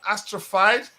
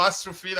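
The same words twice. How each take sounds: First: Astrophyte ending like "fight"; unsure pronunciation. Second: Astrophyte ending like "feed"; unsure pronunciation. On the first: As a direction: say Astrophyte with a long-i "fyte" ending. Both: Shown as a demonstration. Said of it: "don't even know how to pronounce it".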